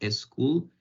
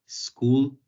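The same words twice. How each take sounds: First: The word starts with an added e vowel sound. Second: The word starts directly with the s sound. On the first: The speaker calls it wrong. "y no decir school" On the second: The speaker calls it right. "Es difícil decir school"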